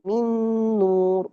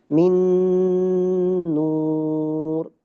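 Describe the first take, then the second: First: The nasal sound is held for two counts. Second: The nasal sound is held for nearly four counts. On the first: "dua ada" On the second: "bacanya panjang. Ada yang sampai mendekati empat harakat"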